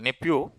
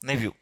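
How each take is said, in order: First: The middle consonant is a p sound. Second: The middle consonant is a v sound.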